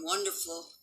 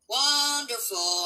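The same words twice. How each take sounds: First: Said in the usual way. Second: "Wonderful" stretched slow and higher; long, emphatic "Wonderful"; drawn-out emphasis. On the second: Real, not acted. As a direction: draw out "Wonderful" at a raised pitch. Repeats the word drawn out for emphasis.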